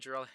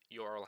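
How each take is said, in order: First: The name begins with a J sound. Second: The name begins with a Y sound. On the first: The speaker calls it wrong. "in America, it's you know usually you pronounce your your J's. So I usually say Jurel" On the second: The speaker calls it right. "but it is Yorel Hato"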